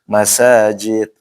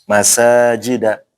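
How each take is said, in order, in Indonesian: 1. Kata ini berakhir dengan bunyi d tanpa vokal. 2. Kata ini berakhir dengan vokal a pendek. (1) "Jangan sampai dibaca masajid, nggak boleh ya" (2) "Masajida langsung"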